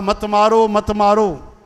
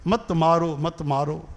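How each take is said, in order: First: Raised, drawn-out mock plea; pleading unborn babies. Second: Mildly pleading babies. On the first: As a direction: cry out for mercy as the babies. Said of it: "उहे चवणु लॻा". (ॿारनि जी बुलंद मिन्नत) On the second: Acted. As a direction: plead weakly, trailing off quietly. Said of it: "ओहो, रोअनि पिया". (ॿारनि जी धीमी रुअणहारकी मिन्नत)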